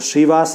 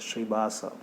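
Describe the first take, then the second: First: The consonant after 'Shri' is a 'v' sound. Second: The consonant after 'Shri' is a 'bh' sound. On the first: The speaker calls it wrong. "मेरा ये सही नहीं है" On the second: The speaker calls it right. "वो लोग क्या बोलते हैं, श्रीभास मंदिर है बोलते हैं"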